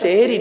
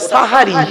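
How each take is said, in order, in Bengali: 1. প্রথম স্বরধ্বনিটি 'e' ধ্বনি। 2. প্রথম স্বরধ্বনিটি 'a' ধ্বনি। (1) "ওটা সেহেরি নয় গো বাবা" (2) "ওটা সাহারি"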